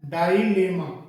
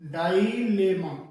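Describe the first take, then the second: Both takes have the same delivery.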